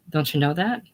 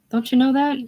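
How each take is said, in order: First: Said in the usual way. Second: Much higher, pressing the question; pleading, pitched up. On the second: Acted. Ralph urges George to see it, pitched high. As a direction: push it up high and urgent.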